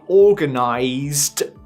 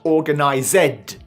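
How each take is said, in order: First: The ending adds no extra syllable. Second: The ending is said as an extra syllable. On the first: The speaker calls it right. "We say in the past" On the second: The speaker calls it wrong. "not organized"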